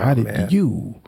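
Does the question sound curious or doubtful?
doubtful. It sounds like a doubtful, judging question. The asker implies the person does not deserve it. "That's what the sound comes off like"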